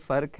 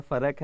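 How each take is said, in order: First: فرق said as "farq", one syllable; "farq" offered as the first option; one-syllable pronunciation. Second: فرق said as "fa-raq", two syllables; "farak" offered as the second option; two-syllable pronunciation. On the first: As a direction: close فرق on the consonant cluster, no vowel between r and q. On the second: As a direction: put a short vowel between r and the final sound of فرق. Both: Shown as a demonstration. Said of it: "کیا اصل اس کا تلفظ ہے".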